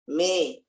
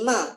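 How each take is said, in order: First: The vowel leans toward an e sound. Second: The vowel is a plain open a sound. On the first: "bercampur antara kasrah dengan fathah" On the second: "tidak lagi ma"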